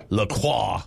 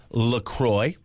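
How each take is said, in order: First: "La Croix" said "luh-KWAH"; French pronunciation. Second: "LaCroix" said "luh-CROY"; official pronunciation. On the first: Host shows the too-French way, "La Croix" as luh-KWAH. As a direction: end "La Croix" on an open French "wah". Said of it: "it's not like La Croix". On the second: Host gives the official name of the drink, "LaCroix" as luh-CROY. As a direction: rhyme the end of "LaCroix" with "boy". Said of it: "it's, uh, pronounced LaCroix". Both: Shown as a demonstration.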